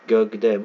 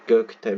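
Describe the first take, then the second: First: Gövde said with a clear v, as the word is spoken; read as gövde. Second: Gökte said with a hard k, letter by letter as written; spelled-out reading. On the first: Teacher showing students how the word is read: Gövde with v. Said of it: "Bunu gövde okuruz". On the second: Teacher showing students the written spelling: Gökte with k. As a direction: read Gökte with k and t, as the script spells it. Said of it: "Gökte diye yazarız". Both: Shown as a demonstration.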